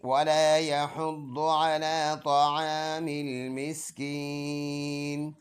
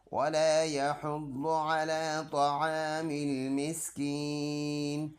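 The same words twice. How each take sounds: First: Melodic recitation, louder, with a slow drawn-out Miskin; Quran recitation. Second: Melodic tajweed chant; Quran recitation. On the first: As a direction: chant the verse fully and stop on Miskin. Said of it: "full आयत ऐसे पढ़ेंगे". (पूरी आयत तिलावत के अंदाज़ में, मिस्कीन पर रुककर) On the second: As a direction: recite the verse in a drawn-out tune. Recites the verse before spelling. (Quran की तिलावत के अंदाज़ में) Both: Shown as a demonstration.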